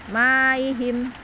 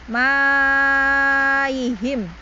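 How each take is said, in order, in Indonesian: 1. Vokalnya hanya ditahan dua harakat. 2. Vokalnya dibaca panjang enam harakat. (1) "dibaca dengan qasr dua harokat" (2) "maka kita baca enam harokat ya"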